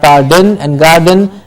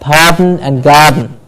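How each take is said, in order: First: A vowel sound is heard before each final n. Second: Each final n is nasal with no vowel before it. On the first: The speaker calls it wrong. "and not pardon and garden" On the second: The speaker calls it right. "but pardon and garden"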